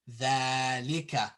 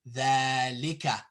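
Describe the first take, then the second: Both takes have the same delivery.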